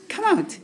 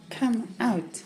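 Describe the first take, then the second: First: Higher call, "Come" stressed and lifted; coaxing call. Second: Softer and lower "Come out", "Come" leaned on; soft coax. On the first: To Johnny in the cup, a higher coaxing "Come out". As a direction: call him out with a high pitch on "Come". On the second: To Johnny in the cup, a soft murmured "Come out". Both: Real, not acted. Calling the pet out.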